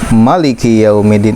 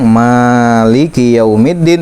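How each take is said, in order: First: The first vowel of maliki is kept short. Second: The first vowel of maliki is drawn out long. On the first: "itu sah, boleh" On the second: "dibaca panjang"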